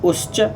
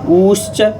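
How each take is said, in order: First: The u vowel is held very briefly. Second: The u vowel is held about twice as long. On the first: "ये ह्रस्व उकार हो गया" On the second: "ये दीर्घ उकार हो गया"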